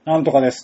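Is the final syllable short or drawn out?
short. The ending is short and businesslike.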